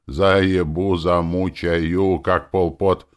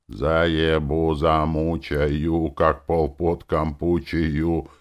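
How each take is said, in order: First: Slow chant, pushed louder; sung, louder stern recitative. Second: Slow, chanted rhythm; sung, stern recitative. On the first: Hero repeating his chant to Fixie, louder and slow. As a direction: chant it again, slow and harder. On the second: Hero chanting in rhythm to Fixie, slow stern recitative. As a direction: chant it slowly like a grim march. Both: A narrator's reading. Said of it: "моему суровому речитативу".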